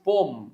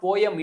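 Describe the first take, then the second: First: It has one syllable, one vowel silent. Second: It has two syllables, both vowels sounded. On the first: The speaker calls it right. "ఒక ఓవెల్ silent అయ్యే అవకాశం ఎక్కువ ఉంటుంది" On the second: The speaker calls it wrong. "It's not పోయం"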